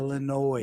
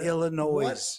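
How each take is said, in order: First: The final S is silent. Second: The final S is pronounced. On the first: The speaker calls it right. "Illinois, not" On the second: The speaker calls it wrong. "not Illinois"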